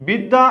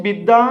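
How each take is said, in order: The two takes are said the same way.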